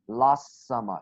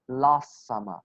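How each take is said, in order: First: The T sound in 'last' is dropped. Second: The T sound in 'last' is dropped.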